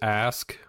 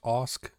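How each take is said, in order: First: The vowel is the 'a' of 'cat'. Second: The vowel is an open 'ah' sound. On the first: The speaker calls it wrong. "it says ask, but that just sounds so weird" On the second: The speaker calls it right. "pronounced Osk is how I've always pronounced it"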